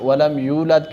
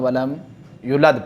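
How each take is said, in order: First: The vowel after 'y' is long. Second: The vowel after 'y' is cut short. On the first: The speaker calls it right. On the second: The speaker calls it wrong.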